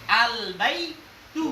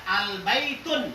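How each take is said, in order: First: "baitu" drawn out slowly, ending on an open u; ending without tanwin. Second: "baitun" read with a final n sound; forbidden tanwin ending. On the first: Teacher modelling the allowed reading, slow "baitu" with no n. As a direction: stretch "baitu" and leave off the final n. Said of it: "ndak boleh antum baca al baitun". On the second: Teacher showing students the forbidden reading, "baitun" ending in n. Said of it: "Jadi ndak boleh antum baca". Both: Shown as a demonstration.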